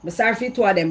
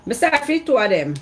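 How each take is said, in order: First: TWO said higher and louder, falling at the end; stressed two. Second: SORRY said higher and louder, falling at the end; stressed sorry. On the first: Repeating the pity for both, stress on TWO. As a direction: hit the word TWO to say both deserve pity. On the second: Pitying the two of them, loud stress on SORRY. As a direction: lean hard into SORRY as a loud, pitying cry. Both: Real, not acted.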